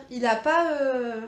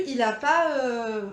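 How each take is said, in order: Both takes have the same delivery.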